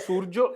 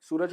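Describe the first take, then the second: First: The name is said as Surjo, Bengali style. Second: The name is said as Suraj, Hindi style.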